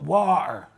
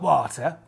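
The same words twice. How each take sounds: First: The T sound in the middle is dropped. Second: The T sound in the middle is clearly pronounced. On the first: The speaker calls it right. "It's important you don't sound the T" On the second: The speaker calls it wrong. "Not water"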